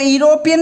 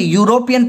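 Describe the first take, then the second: First: The word begins with a plain vowel sound. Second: The word begins with a 'y' consonant sound. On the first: The speaker calls it wrong. "इसको यूरोपियन नहीं पढ़ेंगे" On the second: The speaker calls it right. "यूरोपियन पढ़ेंगे"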